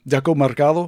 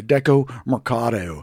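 First: Mercado said as "Mercallo", with an L; mispronounced name. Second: Mercado said with a clear D, "mer-CAH-do"; corrected pronunciation. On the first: Host fumbles the market's name, mispronounced. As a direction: slip an L into Mercado in place of the D. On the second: Host corrects the market's name, careful pronunciation. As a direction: fix the D in Mercado. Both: Real, not acted. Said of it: "Oh, no, I'm sorry".

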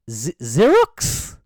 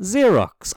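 First: Xerox drawn out slowly as a baffled question; unsure pronunciation. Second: Xerox said firmly as ZEER-ox, high then falling; confident pronunciation. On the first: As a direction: stumble on the Z of Xerox, then end it rising. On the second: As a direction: repeat Xerox as just learned, with a falling end. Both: Real, not acted. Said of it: "How the fuck do you say that word".

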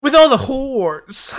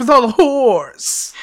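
First: Slow, loud mock announcer read; imitating the ad voice. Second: Slow, loud mock ad read, drawn out; imitating the ad voice. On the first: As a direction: stretch it out like the ad man. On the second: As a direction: savor it like the radio ad.

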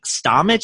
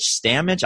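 First: Stamich with an open "ah", as in "stah-mitch"; pronunciation attempt. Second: Stamich with a short "a", as in "stam-itch"; second pronunciation attempt. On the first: Beer drinker guessing at the brewery's beer name, Stamich said with "ah". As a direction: try Stamich as STAH-mitch, rising unsure. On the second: Beer drinker guessing at the brewery's beer name, Stamich said with short "a". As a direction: try Stamich as STAM-itch, rising unsure. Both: Shown as a demonstration. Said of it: "I can't pronounce it anyway".

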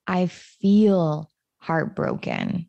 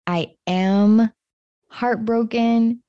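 First: "feel" slowed and leaned on; slow, weighted "I feel heartbroken"; stress on feel. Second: Said in the usual way. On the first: Shown as a demonstration. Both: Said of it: "went from saying".

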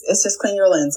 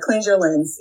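First: "clean" said plainly, with no s sound at the end; corrected word. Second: "Cleanse" said with the s sound at the end, as a slip; "Cleanse" like the word for purifying, not "clean"; mispronounced word. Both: Shown as a demonstration.

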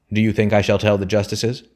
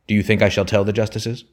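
First: Louder, forceful repeat of a demand; insistent roar. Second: Raised, angry challenge from a father; flare of anger. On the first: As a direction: press the question hard, a contained narrator's roar. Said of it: "roared the man insistently". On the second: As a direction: flare up at your son with an indignant question. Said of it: "He turned round in a flare of anger". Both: A narrator's reading.

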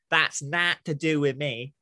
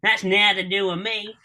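First: Slow, lower Northern try sliding into New York gangster; botched Northern accent, drawn out and low; attempted Northern accent. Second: The phrase in genuine Hull accent; Northern accent. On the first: Southerner trying a phrase, Northern accent gone New York. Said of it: "like a, a New York gangster". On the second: Northerner correcting southerner's attempt, real Northern accent. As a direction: correct it into proper Northern speech. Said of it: "not Northern". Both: Shown as a demonstration.

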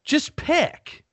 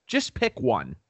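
First: High, exasperated jab at the weather; pitched-up mock demand; exasperated plea. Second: Said in the usual way. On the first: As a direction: squeak it up high, fed up. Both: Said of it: "and I'm like".

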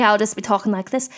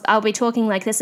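First: Sudden put-on Essex accent. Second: Said in the usual way. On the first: Shown as a demonstration. Host showing it's second nature, sudden Essex accent. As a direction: switch into playful Essex. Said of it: "I love doing an Essex accent". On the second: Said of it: "it's second nature to me".

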